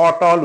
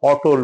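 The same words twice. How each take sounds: First: অটল said "otol" with open aw on ট, "aw-tawl"; অটল as "ɔ-ʈɔl"; correct pronunciation. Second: অটল said as "otol", closed o after ট; অটল with an o-kar sound on ট; common mispronunciation. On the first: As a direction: keep ট open in অটল, no o-kar. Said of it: "টয়ে কোনো ওকার নাই". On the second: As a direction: round the ট of অটল into "to". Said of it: "আমরা ভুল করে সাধারণত অটল বলি". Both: Shown as a demonstration.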